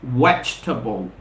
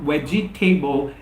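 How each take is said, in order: First: The second vowel is dropped and silent. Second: The second vowel is clearly sounded. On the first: The speaker calls it right. "the second we have ... is quiescent, is silent" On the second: The speaker calls it wrong. "the correct pronunciation is not vegetable"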